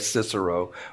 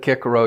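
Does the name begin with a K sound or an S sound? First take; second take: S sound; K sound. First: The name begins with a soft S sound. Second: The name begins with a hard K sound. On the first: The speaker calls it wrong. "I know we all say Cicero" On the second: The speaker calls it right. "and I said Cicero"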